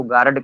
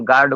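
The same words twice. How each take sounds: First: "गार्ड" broken into two syllables, gaa-rad; village mispronunciation. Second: Said in the usual way. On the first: Shown as a demonstration. Teacher showing village speech, "गार्ड" said as gaa-rad. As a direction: add a vowel before the d in "गार्ड". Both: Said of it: "को गार्ड कह देते हैं".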